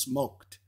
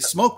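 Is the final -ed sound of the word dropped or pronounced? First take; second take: pronounced; dropped. First: The final -ed sound is clearly pronounced. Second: The final -ed sound is dropped. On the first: The speaker calls it right. "It's smoked. That's the proper English" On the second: The speaker calls it wrong. "People say smoked meat"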